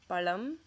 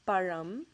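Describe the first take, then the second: First: The middle consonant is a plain L sound. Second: The middle consonant is an R-like sound. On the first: The speaker calls it wrong. "substitute the ra sound for la, the la sound, the L sound" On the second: The speaker calls it right. "it ends with that ra sound"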